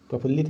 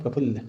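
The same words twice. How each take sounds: First: प्रफुल्लित with an extra -it ending; the wrong प्रफुल्लित, -lit added; प्रफुल्लित as the mistake; wrong form said. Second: प्रफुल्ल ending cleanly on -ll; the right प्रफुल्ल, no -it; प्रफुल्ल, corrected; correct form. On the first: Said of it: "प्रफुल्लित नहीं होता है". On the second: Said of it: "प्रफुल्ल हो गया". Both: Shown as a demonstration.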